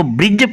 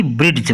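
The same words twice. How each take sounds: First: ब्रिज said with the D silent, straight into the j sound. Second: ब्रिड्ज with an audible d stop before the j; D wrongly pronounced. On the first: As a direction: say ब्रिज with no d before the j. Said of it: "इसको ब्रिज पढ़ेंगे ना कि ब्रिड्ज". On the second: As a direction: sound out the D in ब्रिड्ज, as "brid-j". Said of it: "ना कि ब्रिड्ज पढ़ेंगे". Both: Shown as a demonstration.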